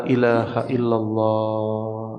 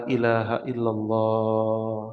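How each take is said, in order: No difference in how they are said.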